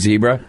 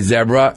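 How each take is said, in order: First: It is said with an American pronunciation. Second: It is said with a British pronunciation. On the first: The speaker calls it right. "Instead of going zebra" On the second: The speaker calls it wrong. "with a British phrasing"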